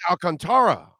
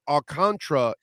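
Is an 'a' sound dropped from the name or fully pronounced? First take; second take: pronounced; dropped. First: Every 'a' sound in the name is pronounced. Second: One 'a' sound in the name is dropped. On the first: This is how the name is said in Spanish. The speaker calls it right. "It's Alcantara" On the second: This is an Americanized version of the name. The speaker calls it wrong. "the Alcantara is not how it's spelled"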